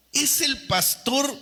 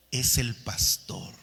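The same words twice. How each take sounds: First: Higher, slow indignant complaint; mock indignant complaint. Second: Said in the usual way. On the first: Congregant grumbling that the pastor means him, mock indignant. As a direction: whine it like an offended listener.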